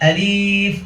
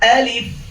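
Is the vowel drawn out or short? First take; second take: drawn out; short. First: The vowel is drawn out long. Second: The vowel is kept short. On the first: The speaker calls it wrong. "অনেকে আমরা মাত করি আলিফ, এটাও ভুল" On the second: The speaker calls it right. "আমরা আবার বলছি, খেয়াল করেন"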